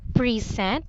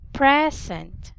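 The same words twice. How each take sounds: First: The first vowel is not a short E. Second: The first vowel is a short E. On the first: The speaker calls it wrong. "it's not present" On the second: The speaker calls it right. "this is actually short E"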